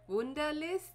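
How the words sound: The name is said with a German pronunciation. "In German, it's actually pretty, like"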